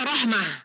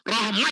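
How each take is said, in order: First: The word ends with an h sound. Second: The word ends with a t sound. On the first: The speaker calls it right. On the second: The speaker calls it wrong.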